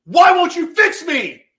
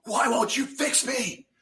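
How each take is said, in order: First: Very high, very loud anguished scream, slow; desperate furious scream at God. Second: High, strained plea at God, slow; pained cry at God; cursing at God. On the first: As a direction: scream it up at heaven. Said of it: "as I'm cursing at God". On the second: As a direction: cry it out in anguish. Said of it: "I started cursing at God". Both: Retold or imitated.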